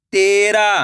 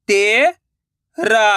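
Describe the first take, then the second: First: Said in the usual way. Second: तेरा drawn out slowly, syllable by syllable; slow syllable split. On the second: Shown as a demonstration. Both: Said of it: "मैं किस तरीके से".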